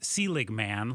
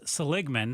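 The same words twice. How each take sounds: First: The first part sounds like the name Selig. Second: The first part does not sound like Selig. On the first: The speaker calls it wrong. "It looks like Seligman, like the former uh, commissioner of baseball, Bud Selig" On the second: The speaker calls it right. "but it's Seligman"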